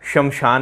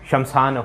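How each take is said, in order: First: The word has a vowel between sh and m. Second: The word starts with shm, no vowel between. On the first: The speaker calls it wrong. "शमशान नहीं होता" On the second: The speaker calls it right. "आधा से आता है शमशान में, ये होता है शुद्ध"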